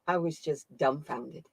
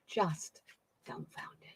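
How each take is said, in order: First: Said in the usual way. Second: Dumbfounded whispered under the breath; dumbfounded said as a stunned whisper. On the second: Real, not acted. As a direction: breathe the word dumbfounded out in awe. Repeats dumbfounded, then whispers it.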